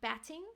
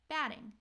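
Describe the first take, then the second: First: The middle consonant is a clear T sound. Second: The middle consonant is a quick D-like flap. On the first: The speaker calls it wrong. "it's not batting" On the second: The speaker calls it right. "it's batting, batting with a D sound"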